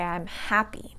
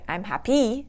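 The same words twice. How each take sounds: First: The stress is on the first syllable. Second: The stress is on the second syllable. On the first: The speaker calls it right. "the first syllable is going to take the stress" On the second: The speaker calls it wrong. "I don't say"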